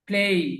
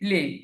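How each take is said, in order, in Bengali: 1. স্বরধ্বনিটি 'e' থেকে 'ee'-তে গড়িয়ে যায়। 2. স্বরধ্বনিটি সাধারণ 'e' শব্দই থাকে। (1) "প্লেই উচ্চারণটা প্লেই।" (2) "অনেকে ব- বলে প্লে, কিন্তু এটা প্লে না।"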